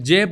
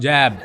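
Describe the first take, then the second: First: The vowel is a plain, closed 'e' sound. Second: The vowel is an open, broad 'ai' sound. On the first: "मैं जेब को" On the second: "जैब कहता हूँ"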